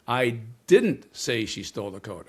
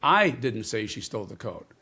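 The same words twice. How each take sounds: First: "didn't" punched, the rest falls; stress on didn't. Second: "I" hit first, then a falling line; stress on I. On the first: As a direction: deny it hard on "didn't". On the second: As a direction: punch "I" as if blaming someone else. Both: Shown as a demonstration. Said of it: "change the emphasis on a single word".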